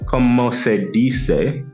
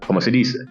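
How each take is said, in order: First: It is said choppily, not like native Spanish. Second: It is said with flowing native Spanish musicality.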